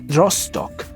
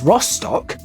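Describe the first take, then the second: First: The name is said with German-style pronunciation. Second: The name is said with English-style pronunciation. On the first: "would be pronounced more like uh, Rostock uh, in German" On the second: "what I would say as Rostock"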